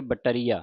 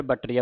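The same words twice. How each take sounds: First: ਬਟਰੀਆ as ba-tariya, falling; correct pronunciation demo. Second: ਬਟਰੀਆ run together as batt-riya; joined wrong pronunciation. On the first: Teacher giving the pure reading, ਬਟਰੀਆ as ba-tariya. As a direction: sound the vowel between ba and riya in ਬਟਰੀਆ. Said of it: "ਫਿਰ ਸ਼ੁੱਧ ਉਚਾਰਨ ਹੋਵੇਗਾ". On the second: Teacher explaining the mistake, run-together ਬਟਰੀਆ. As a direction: say ਬਟਰੀਆ without the middle vowel. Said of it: "ਜੇ ਆਪਾਂ ਇਕੱਠਾ ਬੋਲਦੇ". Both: Shown as a demonstration.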